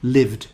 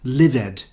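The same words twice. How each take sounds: First: The ending adds no extra syllable. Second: The ending is said as an extra syllable. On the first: The speaker calls it right. "where you don't pronounce the E" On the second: The speaker calls it wrong. "students make a mistake and they say lived, like started"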